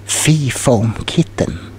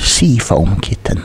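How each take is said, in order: First: "Fee Foam Kitten" with an f sound, said slowly by mistake; slip of the tongue. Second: "sea foam kitten" corrected with a clear s sound; self-correction. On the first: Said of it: "sea foam kitten, I mean". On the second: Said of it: "I mean". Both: Real, not acted.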